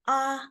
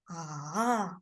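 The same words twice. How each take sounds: First: The pitch stays high and level. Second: The pitch falls low, then rises again. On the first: "So that is the first tone. It's high-pitched" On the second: "So it's falling down and rising up"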